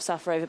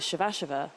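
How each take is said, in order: First: The name begins with a plain s sound. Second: The name begins with an sh sound. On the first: This is how the player herself says it. "she calls herself Safarova" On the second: This is how the umpires now say it. "now all the umpires are calling her Shavashova"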